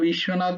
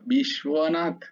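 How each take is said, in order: First: No 'w' sound is heard after 'sh'. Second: A 'w' sound is heard after 'sh'. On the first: The speaker calls it wrong. "ওখানে বিশ্বনাথ নয়" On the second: The speaker calls it right. "বয়ের উচ্চারণ করতে হবে ওখানে"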